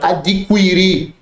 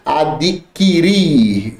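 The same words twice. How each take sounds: First: The u after the q is pronounced. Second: The u after the q is silent. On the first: The speaker calls it wrong. "muita gente fala adquirir ... tá errado" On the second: The speaker calls it right. "Não tem som de U"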